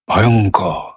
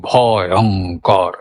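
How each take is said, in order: First: ভয়ঙ্কর low, ভ sliding into অং unbroken; gliding between syllables. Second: ভয়ঙ্কর slow and low, cut into ভ, অং, কর; broken between syllables. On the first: Teacher shows the right way, gliding between syllables. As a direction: roll ভয়ঙ্কর through in one falling glide. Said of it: "এখানে একটা মিড আছে". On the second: Teacher demonstrates the wrong way, broken between syllables. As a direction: chop ভয়ঙ্কর into separate drawn-out syllables. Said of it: "তখন কি কেটে এলো?". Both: Shown as a demonstration.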